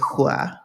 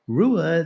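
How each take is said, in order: First: It starts with a breathy H-like sound. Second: It starts with an English-style R sound. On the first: The speaker calls it right. "I'm at least trying to say hua" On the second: The speaker calls it wrong. "I'm trying not to say like I did two years ago"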